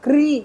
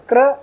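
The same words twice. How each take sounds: First: क्री as "krii"; vowel contrast. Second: क्र as a loud "kra"; punched "kra" for क्र; vowel contrast. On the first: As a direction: say क्री with a long "ee". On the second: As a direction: say क्र with an "a" sound. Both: Shown as a demonstration. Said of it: "दोनों में अंतर है".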